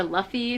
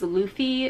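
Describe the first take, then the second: First: Luffy said as LUFF-ee; Luffy with first syllable rhyming with "cuff"; short-vowel pronunciation. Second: Luffy said as LOO-fee; Luffy with first syllable like "Lou"; long-vowel pronunciation. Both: Shown as a demonstration. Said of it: "don't even know how to pronounce it".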